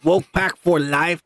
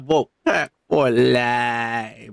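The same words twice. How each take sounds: First: Said in the usual way. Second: Lower, stretched-out mock-solemn motto; slow deep catchphrase. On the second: Host repeating the sign-off, slow and deep. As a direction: drag the words out low and slow.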